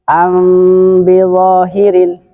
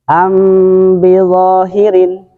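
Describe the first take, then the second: No difference in how they are said.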